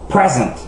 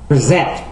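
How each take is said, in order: First: The stress is on the first syllable. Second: The stress is on the second syllable. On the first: It is used as a noun or adjective. "Avec les noms et les adjectifs de deux syllabes, l'accent est normalement sur la première syllabe" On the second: It is used as a verb. "Avec la plupart des verbes de deux syllabes, l'accent est normalement sur la dernière syllabe"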